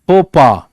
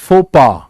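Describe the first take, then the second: The two takes are said the same way.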